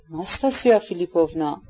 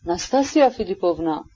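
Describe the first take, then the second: First: Mildly anxious coaxing by name; worried, persuasive. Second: Understated tremulous appeal by name; trembling voice. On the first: General tries to dissuade Nastasya, worried and persuasive. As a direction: try to talk her round, concerned. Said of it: "با لحنی در قانع کردن کوشا و نگران". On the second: Afanasy appeals to Nastasya, voice trembling. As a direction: call her name as if shaken. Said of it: "با صدای لرزان گفت". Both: A narrator's reading.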